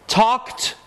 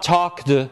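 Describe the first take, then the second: First: The word ends in a voiceless t sound. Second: The word ends in a voiced d sound. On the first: The speaker calls it right. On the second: The speaker calls it wrong.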